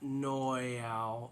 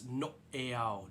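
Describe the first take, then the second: First: The word flows smoothly without a break. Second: The word has a sharp staccato break inside. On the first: The speaker calls it wrong. "It's not noeau" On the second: The speaker calls it right. "It's like a chop, an interruption, a break, a staccato"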